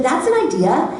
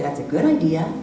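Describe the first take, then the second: First: "an" lifted with a rise, higher voice; stress on an. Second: Said in the usual way. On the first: Retold or imitated. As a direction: lean on "an" in "That's an idea.". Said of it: "only heard the tone of voice". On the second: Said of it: "Notice she didn't say".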